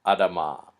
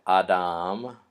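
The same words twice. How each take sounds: First: Adama with a quick, reduced first vowel and long final "ah"; shortened first vowel. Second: Adam said "ah-DAHM", with a full first vowel; long first vowel. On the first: Teacher contrasting here we have Adama, reduced first vowel in Adama. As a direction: clip the first "A" of Adama short, ending on "mah". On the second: Teacher contrasting here we have Adam, long first vowel in Adam. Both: Shown as a demonstration. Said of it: "first vowel is reduced or shortened".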